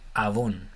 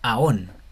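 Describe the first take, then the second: First: It is said with a v sound. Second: It is said with no v sound. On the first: The speaker calls it right. "funcionaría como una vav con una holem arriba. Entonces sería avon" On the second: The speaker calls it wrong. "si la viéramos como una O esta holem, tendríamos que decir como aon"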